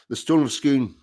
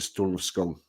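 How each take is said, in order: First: Scone is said with an 'oo' vowel. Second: Scone is said with a long 'o' vowel.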